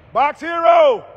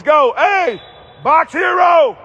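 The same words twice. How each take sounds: First: Said in the usual way. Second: Loud cheer across the court; loud shout from the bleachers; courtside shout. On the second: Real, not acted. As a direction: call it out so he hears.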